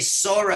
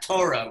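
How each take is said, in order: First: The word begins with an s sound. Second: The word begins with a t sound. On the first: The speaker calls it right. "Why say Sora" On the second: The speaker calls it wrong. "and not Torah"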